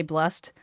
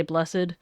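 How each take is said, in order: First: Blessed said as one syllable, "blest"; blessed, one syllable, ending in a t sound. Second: Blessed said in two syllables, "bless-ed"; blessed with the old -ed ending sounded. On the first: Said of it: "now we say blessed". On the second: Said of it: "then in old language they say blessed". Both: Shown as a demonstration.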